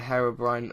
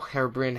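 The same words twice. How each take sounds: First: Herobrine ending like "brine"; long-i pronunciation. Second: Herobrine ending like "brin"; short-i pronunciation. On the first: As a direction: say Herobrine with a long i, rhyming with "line". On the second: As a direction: say Herobrine with a short i, rhyming with "bin". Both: Shown as a demonstration. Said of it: "however you say it".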